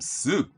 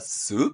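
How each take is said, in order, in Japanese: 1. 音程は上がってから下がります。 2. 「soup」は音程が上がります。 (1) "みたいに上げて下げたりもします" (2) "疑問だったらsoup って音程を上げる"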